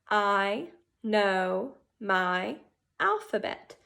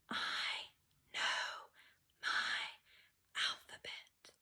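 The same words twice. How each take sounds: First: It is said at normal loudness. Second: It is said quietly.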